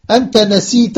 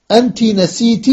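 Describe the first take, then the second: First: أنت نسيت with final "a" on both words: anta nasiita; masculine -ta endings. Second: أنت نسيت with final "i" on both words: anti nasiiti; feminine -ti endings. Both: Shown as a demonstration. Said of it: "إسناد ناسية إلى الضمائر".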